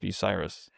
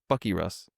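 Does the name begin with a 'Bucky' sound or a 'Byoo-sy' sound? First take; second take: Byoo-sy; Bucky. First: The name is said with a 'byoo-sy' beginning. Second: The name is said like 'Bucky Russ'. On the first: The speaker calls it right. "but it's Bucyrus" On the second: The speaker calls it wrong. "I pronounce I in my head like, oh, this is pronounced Bucky Russ"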